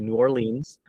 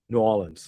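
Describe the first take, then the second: First: The R in Orleans is clearly pronounced. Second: The R in Orleans is dropped. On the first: The speaker calls it wrong. "You don't say New Orleans" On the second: The speaker calls it right. "but you lose the R"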